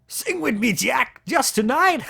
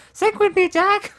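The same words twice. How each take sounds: First: Pitched up, louder, lilting plea; high boyish Ed voice. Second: Much higher and louder, squeaky singsong; squeaky boyish voice. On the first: Drunken Ed begs Jack to sing, high boyish plea. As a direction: coax him like a drunk teen boy, high and slow. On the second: Drunken Ed calls Jack to sing, squeaky high whine. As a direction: push it up into a squeaky pre-puberty whine. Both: Acted. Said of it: "Maybe he hasn't hit puberty yet".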